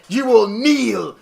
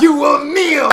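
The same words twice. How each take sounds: First: Slow, commanding villain voice; lightly voiced Loki command; dark lord. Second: Louder, higher villain command; shouting Loki demand; dark lord. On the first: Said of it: "Loki is like". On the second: Retold or imitated. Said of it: "then he's like".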